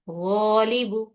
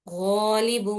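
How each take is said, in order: The two takes are said the same way.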